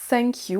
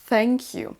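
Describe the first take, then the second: First: It starts with an s sound, tongue inside. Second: It starts with a th sound, tongue between teeth. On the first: The speaker calls it wrong. "attention à ne pas dire thank you, vous voyez que ma langue est restée dans ma bouche" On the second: The speaker calls it right. "mais bien dire thank you"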